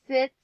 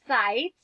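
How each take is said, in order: First: The vowel is short, like in sit. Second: The vowel is long, like in bite. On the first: The speaker calls it wrong. "no, it's not sits" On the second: The speaker calls it right. "I'm going to try it with its long sound"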